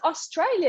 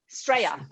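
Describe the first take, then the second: First: The word is said in full, with its opening vowel. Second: The word is shortened, starting straight on the S. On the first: The speaker calls it wrong. "it's Australia, you would think. No, no, no" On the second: The speaker calls it right. "if you want to sound really Aussie, you got to drop the O"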